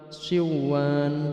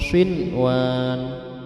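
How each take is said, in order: First: The n sound merges into the following w. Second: The n sound is pronounced clearly before w. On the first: The speaker calls it wrong. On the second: The speaker calls it right.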